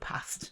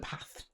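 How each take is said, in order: First: The s sound is clear. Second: The s sound is lisped. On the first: The speaker calls it right. "instead of past" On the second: The speaker calls it wrong. "I've got a little lisp"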